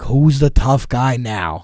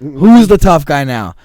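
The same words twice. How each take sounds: First: Slow, drawn-out mocking taunt. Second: Slow, louder, higher taunting shout. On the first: Jumping at the car, taunting the guys: slow sneer. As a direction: savour each word as a dare. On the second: Retold or imitated. Repeating the dare at the car: loud slow taunt. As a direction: yell it in their faces. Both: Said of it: "I'm like".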